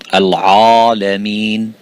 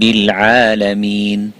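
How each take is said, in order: First: The vowel after the ayn sounds heavy and full. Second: The vowel after the ayn sounds light and thin. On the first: The speaker calls it wrong. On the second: The speaker calls it right.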